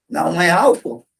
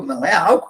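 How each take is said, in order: First: "Não é álcool" with a flat falling end, just as the patient said it; flat repeat of the patient. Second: "Não é álcool" with the voice rising on "álcool"; almost a question. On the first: Analyst echoes the patient's slip back to him, falling statement. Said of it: "repetir como o paciente falou". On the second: The wrong intervention, echoing the patient as a question, rising on "álcool". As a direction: lift "álcool" at the end, as if asking. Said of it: "quase uma pergunta". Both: Shown as a demonstration.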